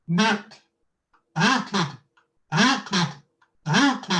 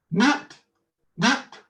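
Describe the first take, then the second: First: Through a kazoo. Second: Higher, louder kazoo buzz; through a kazoo. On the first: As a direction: buzz the word through a kazoo. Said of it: "I'm gonna do knocked and waited through this kazoo". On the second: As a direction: hum each one through a kazoo. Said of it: "through this kazoo". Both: Shown as a demonstration.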